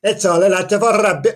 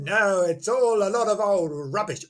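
First: Mock Welsh accent. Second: Put-on lightly scoffing, no accent. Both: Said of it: "Obviously, he said that in Welsh".

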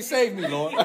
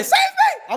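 First: Said in the usual way. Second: Squeaky plea. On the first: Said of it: "I mean". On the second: Shown as a demonstration. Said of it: "If I say".

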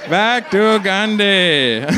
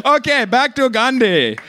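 First: Drawn out slowly for effect; a deliberate, slowed-down echo; slow repeat. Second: Said in the usual way. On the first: Real, not acted. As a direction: stretch "Back to Gandhi" out slowly.

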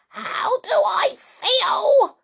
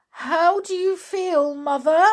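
First: High, loud, slow outraged yell; drawn-out high shriek of outrage; furious cry. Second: High, anxious question; worried, high-pitched enquiry. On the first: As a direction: throw the question back in fury. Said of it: "she cried". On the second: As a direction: ask with mounting worry, raised at the end. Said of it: "asked Missus Cranky anxiously". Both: A narrator's reading.

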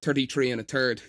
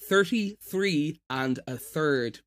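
First: "thirty-three and a third" with hard T for TH; natural Irish TH. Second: Slow "thirty-three and a third" with clear TH; careful TH sounds. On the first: Showing how he naturally says it, T for TH. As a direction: say "thirty-three and a third" like "turty-tree and a turd". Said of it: "naturally, I would say thirty-three and a third". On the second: Irish voice actor showing his recording pronunciation, careful TH. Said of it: "I've taught myself to say it when I'm recording". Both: Shown as a demonstration.

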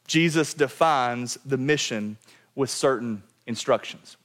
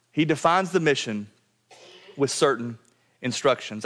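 First: Said in the usual way. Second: Phrase broken by pauses, each chunk landed and falling; preacher spelling out the point piece by piece; slow, spaced emphasis. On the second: Shown as a demonstration. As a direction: give "He defines the mission", "with certain", "instructions" each its own beat.

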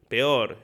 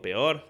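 First: PEOR said firmly with a falling tune; blurted verdict. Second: PEOR turned into a question with a rising tune; second-guessing question. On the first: Comic reacting to a boy's story, PEOR as a falling verdict. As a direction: state PEOR as a settled verdict. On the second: Comic doubting his own remark, PEOR as a rising question. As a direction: question the word PEOR, lifting the end. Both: Retold or imitated. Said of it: "Y después digo".

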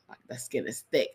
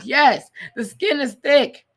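First: Said in the usual way. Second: Slow, loud, higher sarcastic echo. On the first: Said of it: "when he was like". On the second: Pretend. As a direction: drag it out mockingly. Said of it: "I'm like".

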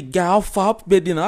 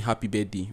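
First: Higher, louder birthday greeting; hyping up. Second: Said in the usual way. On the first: Shown as a demonstration. Greeting a friend on their birthday in real life, hyped up. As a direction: hype your friend up out loud. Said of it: "like, I'll hype you up". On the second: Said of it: "I'll post a video of you saying".

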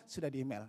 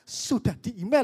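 First: Said in the usual way. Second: "sudah di email" swooping high and louder; emphatic intonation. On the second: Shown as a demonstration. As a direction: stress each word of "sudah di email". ("sudah di email" dengan penekanan berlebihan) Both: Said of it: "Kan beda ya".

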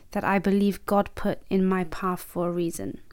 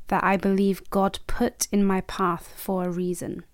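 The two takes are said the same way.

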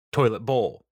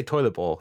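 First: "Toilet" hit hard, "bowl" dropping off; heavy emphasis on "Toilet" in "Toilet bowl"; stress on TOILET. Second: Said in the usual way. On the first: Shown as a demonstration. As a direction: punch the first syllable of "Toilet". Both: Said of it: "the emphasis there on the syllable".

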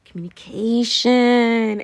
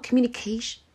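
First: Communication said slow and loud, every syllable stretched; drawn-out emphasis. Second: Said in the usual way. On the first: Shown as a demonstration. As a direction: lean hard on Communication and drag it out.

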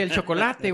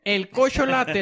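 First: Said in the usual way. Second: "cocholate" with the ch and c swapped, said like "ko-sho-LA-te"; mispronounced chocolate. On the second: Retold or imitated. Mocking a friend, says "cocholate" with the ch and c swapped. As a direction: swaps the sounds in "cocholate" to tease a friend. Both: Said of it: "como lo dijo mi amigo Memo".

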